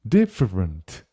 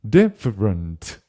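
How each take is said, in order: The two takes are said the same way.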